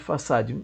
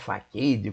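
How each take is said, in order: First: The middle consonant is a soft s sound. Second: The middle consonant is a hard k sound. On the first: The speaker calls it right. "a pronúncia do padrão é Façade" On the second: The speaker calls it wrong. "as pessoas estranham, acham que é faquede"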